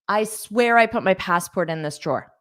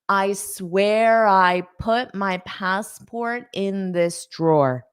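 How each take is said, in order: First: It is spoken at a natural, quick pace. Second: It is spoken slowly and carefully. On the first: "I'm saying it at a natural pace" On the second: "Now I'll say it slowly"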